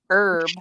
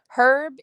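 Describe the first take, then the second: First: The word starts without an h sound. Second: The word starts with an h sound. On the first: It is a cooking plant. "We just don't pronounce it" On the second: It is a man's name. "Herb is a guy that you would date"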